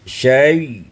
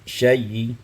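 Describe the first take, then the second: First: The word ends cleanly with no vowel. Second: The word ends with a faint, brief vowel. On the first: "dibaca dengan sukun" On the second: "dan rum"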